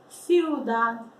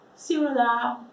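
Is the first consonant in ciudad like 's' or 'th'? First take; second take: th; s. First: The first consonant is a lisped th sound. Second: The first consonant is a plain s sound. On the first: This is how it is said in Spain. "a gente pode pôr aqui na ponta da língua" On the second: This is how other Spanish-speaking countries say it. "nos outros países que falam espanhol, não pronuncia dessa forma"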